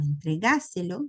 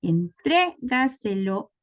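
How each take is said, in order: First: Entregáselo with the stress moved to GÁ; antepenultimate stress. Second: Entrégaselo slowly, stress on TRÉ; stress fourth from end. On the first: Teacher contrasting an esdrújula, stress on GÁ in entregáselo. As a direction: say en-tre-GÁ-se-lo, stressing the third syllable. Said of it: "en el caso de la esdrújula". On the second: Teacher showing a sobresdrújula, slow stress on TRÉ in Entrégaselo. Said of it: "sería el cuarto lugar empezando del final". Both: Shown as a demonstration.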